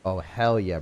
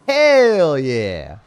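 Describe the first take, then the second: First: Said in the usual way. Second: HELL held long, high and loud; bellowed cheer. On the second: Acted. Streamer repeats his catchphrase, bellowing it. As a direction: belt out "hell" and slide down on "yeah".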